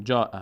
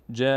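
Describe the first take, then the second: First: Said in the usual way. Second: "جاء" held long before the final stop; elongated alef. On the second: Shown as a demonstration. Teacher showing we must stretch this alef, long. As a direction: draw out the vowel of "جاء" on one note. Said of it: "باید بکشیم این الف رو".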